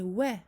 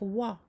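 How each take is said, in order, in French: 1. Le son w est simple et léger. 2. Le son w est emphatique et lourd. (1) "C'est wa" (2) "ne pas emphatiser le waw et ne pas dire wa"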